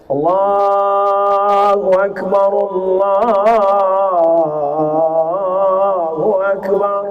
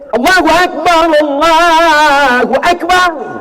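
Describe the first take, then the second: First: It is said softly and gently. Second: It is said loudly and powerfully.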